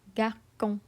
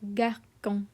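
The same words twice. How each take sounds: First: The middle consonant is a hard K sound. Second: The middle consonant is a hard K sound.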